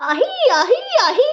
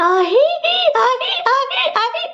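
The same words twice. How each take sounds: First: High, loud trance cries, imitating a possessed woman; possession cries. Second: Loud, high ahi cries, pretending to be possessed; mock possession shout. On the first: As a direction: mimic the shrill ahi calls of a woman in trance. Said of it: "సీగలు ఇట్లా పెట్టుకొనేసి". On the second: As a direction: try out the trance yell half-jokingly. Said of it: "అరిచేసింటే".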